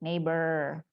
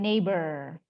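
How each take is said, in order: First: The final R is English-like. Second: The same.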